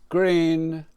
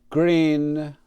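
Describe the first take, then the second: No difference in how they are said.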